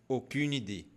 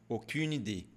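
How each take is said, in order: No difference in how they are said.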